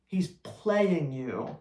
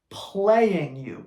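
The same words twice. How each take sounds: First: "He's playing you" dragged out very slowly and softer; slow emphatic repeat. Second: Said in the usual way. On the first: Real, not acted. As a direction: spell out "playing you" word by word. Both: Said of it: "repeats the point for emphasis".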